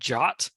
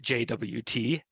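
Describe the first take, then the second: First: It is said as one word, like jot. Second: It is spelled out as three separate letters. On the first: "I've also heard" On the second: "as I'm saying now"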